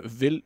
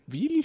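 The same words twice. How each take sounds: First: "ville" with a short i, like English "vill"; tentative French pronunciation. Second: "ville" as "veel", much higher; questioning French pronunciation. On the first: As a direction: say "ville" to rhyme with "hill". Trying French word for town. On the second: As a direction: lift "ville" into a question with a long ee. Correcting the French word. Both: Shown as a demonstration.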